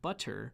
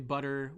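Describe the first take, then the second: First: The middle consonant is a crisp T sound. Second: The middle consonant is a quick D-like sound. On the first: "if you're in some part of the world where you actually pronounce the word butter, the English word butter, as butter, this might not work for you" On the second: "we say butter with sort of the, the English D"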